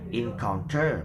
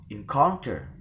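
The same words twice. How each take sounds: First: The stress is not on the middle syllable. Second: The stress is on the middle syllable. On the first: The speaker calls it wrong. "we will never pronounce it as encounter or encounter" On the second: The speaker calls it right. "the stress is given in the penultimate"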